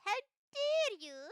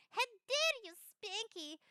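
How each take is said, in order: First: Much higher and louder, hammed-up indignation; mock outrage. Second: Higher, louder, outrage breaking into laughter; laughing mock outrage. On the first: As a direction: shriek it like an offended diva. Offended at being called pet. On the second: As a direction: scold through giggles.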